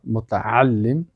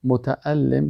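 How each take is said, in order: First: متعلم slowly, with a clear throaty ain; slow teacher demo of متعلم; careful ain. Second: Said in the usual way. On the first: Shown as a demonstration. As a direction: stretch out متعلم and hit the ain. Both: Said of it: "یعنی تلفظ همزه و عین".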